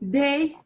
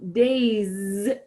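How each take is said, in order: First: The final S is silent. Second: The final S is linked as a Z sound. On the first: "That S is normally silent on the end of the word" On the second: "des now gets that final S pronounced with the liaison"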